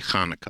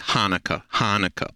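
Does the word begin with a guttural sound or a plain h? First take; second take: guttural; plain h. First: The word begins with a guttural throat sound. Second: The word begins with a plain h sound. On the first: "so there's a little guttural there" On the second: "a lot of Gentiles have difficulties with Ch"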